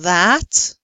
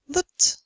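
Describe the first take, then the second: First: The word is said in its full form. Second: The word is said in a reduced form. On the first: "Instead of that" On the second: "we usually say that"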